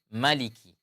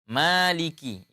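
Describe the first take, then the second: First: The first vowel is short. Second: The first vowel is held long. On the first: "kalau tidak ada berarti bacanya maliki" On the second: "itu ada huruf matnya"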